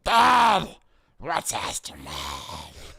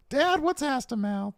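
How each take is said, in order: First: Put-on adult doing child voice. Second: Put-on high, slow kid voice; adult doing a kid impression; child voice. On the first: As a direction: play a little kid asking dad. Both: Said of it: "I gotta do my kid impression".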